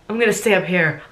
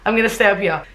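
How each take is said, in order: First: It is said in her own accent. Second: It is said in a put-on British accent.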